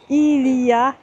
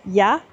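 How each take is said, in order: First: All three syllables are said in full. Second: It is squeezed into one short syllable.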